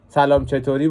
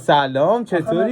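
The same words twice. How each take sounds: First: The greeting is said in a flat tone. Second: The greeting is said with a livelier tone.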